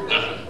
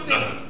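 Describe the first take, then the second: Both takes have the same delivery.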